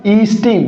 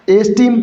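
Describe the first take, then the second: First: ईस्टीम opening on a long "ee"; corrected pronunciation. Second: एस्टीम opening on an "ay" vowel; mispronounced esteem. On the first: Teacher correcting students' pronunciation of ईस्टीम, long "ee" at the start. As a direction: say ईस्टीम as "ee-steem", long first vowel. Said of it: "इसका correct pronunciation क्या होगा". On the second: Teacher showing students the faulty pronunciation, mispronounced. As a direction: say एस्टीम with a leading "ay" sound, as in "ace". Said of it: "नहीं दोस्तों, इसका correct pronunciation क्या होगा". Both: Shown as a demonstration.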